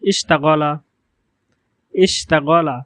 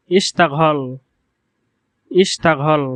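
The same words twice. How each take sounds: First: ইশতাগলা with plain g and final a; standard Arabic. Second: ইশতাগল with breathy ঘ-like g, no final vowel; Gulf dialect. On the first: Teacher showing classical ইশতাগলা. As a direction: say ইশতাগলা with unaspirated গ and full ending. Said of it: "বিশুদ্ধ আরবি ভাষায়". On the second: Teacher showing dialect ইশতাগল. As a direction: say ইশতাগল with aspirated gh and clipped end. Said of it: "আঞ্চলিক আরবি ভাষায়". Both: Shown as a demonstration.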